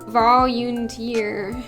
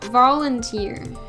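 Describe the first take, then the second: First: An extra y sound is added inside the word. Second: No extra y sound is added inside the word. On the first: The speaker calls it wrong. "there's no Y in there, but I added a Y, and I keep saying volunteer" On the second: The speaker calls it right. "It's vo volunteer"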